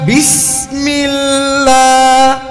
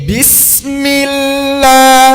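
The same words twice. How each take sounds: The two takes are said the same way.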